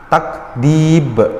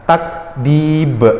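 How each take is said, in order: No difference in how they are said.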